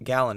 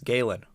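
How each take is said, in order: First: The first syllable sounds like 'gal'. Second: The first syllable sounds like 'gale'. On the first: The speaker calls it wrong. "it's not Gallon" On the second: The speaker calls it right. "it's Galen"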